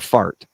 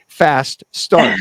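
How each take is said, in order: First: The two words run together into one syllable. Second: The two words are said clearly and separately.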